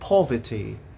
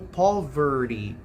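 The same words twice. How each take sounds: First: British accent, with a muffled r and crisp t. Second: American accent, with a soft t and strong r. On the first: "no inglês britânico, a palavra pobreza seria pronunciado como poverty" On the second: "No inglês americano, nós vamos pronunciar como poverty"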